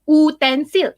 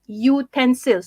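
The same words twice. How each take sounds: First: The word starts with a plain 'oo' vowel. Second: The word starts with a 'yoo' sound. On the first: The speaker calls it wrong. "you don't say utensil" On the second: The speaker calls it right. "you say utensil. So because it's uh, pronounced with the with the sound u"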